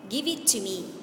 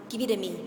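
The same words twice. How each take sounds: First: Each word is said separately and in full. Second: The words run together in a reduced form.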